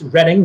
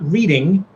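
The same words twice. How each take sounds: First: The first vowel is short, as in red. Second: The first vowel is long, as in reed. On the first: It names the town in Pennsylvania. The speaker calls it right. "and it's Reading" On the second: It is the ordinary word for reading books. The speaker calls it wrong. "not reading"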